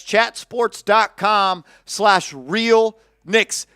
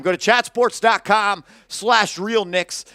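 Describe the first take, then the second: First: Slow, each word set apart, dot stressed; slow, spelled-out URL. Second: Said in the usual way. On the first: Shown as a demonstration. Host spelling out the merch site for listeners, slowly. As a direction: read "chatsports dot com slash real knicks" very slowly with weight on "dot". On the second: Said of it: "That's chatsports dot com slash real knicks".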